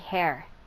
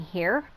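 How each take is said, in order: First: The vowel sounds like 'air'. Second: The vowel sounds like 'ear'. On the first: "sometimes I'll say hair" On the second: "instead of saying here"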